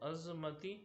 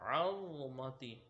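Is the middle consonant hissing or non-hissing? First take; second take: hissing; non-hissing. First: The middle consonant is a hissing z sound. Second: The middle consonant has no hissing sound. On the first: The speaker calls it wrong. "इसमें ये गलती आती है कि इसको अज़मती पढ़ देते हैं" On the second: The speaker calls it right. "इसमें सीटी की आवाज़ नहीं आएगी"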